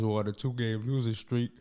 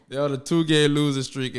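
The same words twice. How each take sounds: First: Losing comes out as "nusing", garbled by numb lips; slurred streak with a numb jaw; numb mouth slur. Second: Two-game losing streak said louder and firmer; re-say two-game losing streak clearly and louder; careful retake. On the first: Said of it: "Oh, God. Sorry, y'all. Sorry". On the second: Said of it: "Sorry, y'all. Sorry". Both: Real, not acted.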